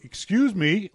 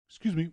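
First: It is said more loudly. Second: It is said softly and politely.

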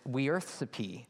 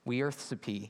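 No difference in how they are said.

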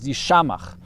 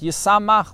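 First: The middle consonant is pronounced as 'sh'. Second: The middle consonant is pronounced as 's'. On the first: It is the reading of the word as written. "it's written as if it says Yishamach" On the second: It is the traditional spoken reading. "we pronounce it Yisamach with a sin"

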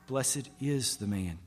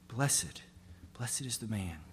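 First: The word 'is' is stressed. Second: The word 'blessed' is stressed.

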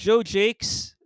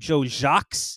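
First: The surname is pronounced the English way. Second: The surname is pronounced the French way. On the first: The speaker calls it wrong. "he doesn't pronounce his last name properly" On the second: The speaker calls it right. "His last name is French. It should be Joe Jacques"

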